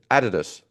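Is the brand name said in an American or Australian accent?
Australian. It is said in an Australian accent. "They said Adidas"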